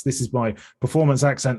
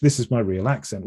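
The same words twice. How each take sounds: First: Lightly theatrical English performance accent. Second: Understated middle English accent; your natural, very English accent; real English accent. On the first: Streamer shows host their developed accent, English performance voice. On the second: Streamer shows host their real accent, plain middle English. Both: Shown as a demonstration.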